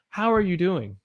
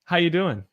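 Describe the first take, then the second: First: Each word is said fully and separately. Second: The words are run together into one flow. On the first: "It's never like" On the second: "It's like all my letters are put together"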